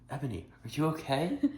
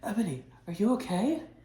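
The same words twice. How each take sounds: First: The line is said in a plain, unconcerned voice. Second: The line is said in a worried, concerned voice. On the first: The speaker calls it wrong. "I have to redo that line" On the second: The speaker calls it right. "you have to do it in a concerted voice"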